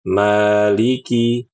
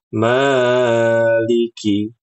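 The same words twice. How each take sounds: First: The long vowel is held for two beats. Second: The long vowel is stretched out too far. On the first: The speaker calls it right. "yang benar adalah dibaca dua harokat" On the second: The speaker calls it wrong. "ini kepanjangan"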